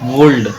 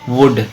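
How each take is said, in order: First: An L sound is heard before the D. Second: No L sound is heard before the D. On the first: The speaker calls it wrong. "लेकिन यहाँ एल silent होता है" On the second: The speaker calls it right. "एल की आवाज नहीं होती"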